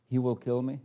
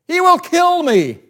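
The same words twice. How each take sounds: First: It is said calmly, like a plain question. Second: It is said with fear and alarm. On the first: The threat is not taken seriously. The speaker calls it wrong. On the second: The speaker is terrified for his life. The speaker calls it right.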